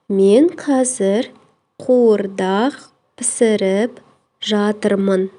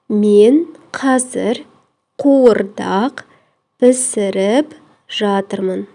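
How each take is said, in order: Both takes have the same delivery.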